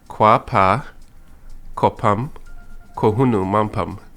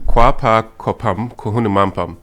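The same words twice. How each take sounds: First: It is said very slowly, word by word. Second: It is said at normal speed as one sentence. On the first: "say it very slowly" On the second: "say it all together. Let's hear it as a sentence"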